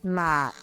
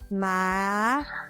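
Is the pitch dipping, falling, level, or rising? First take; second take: dipping; rising. First: The pitch dips low, then rises. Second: The pitch rises from middle to high.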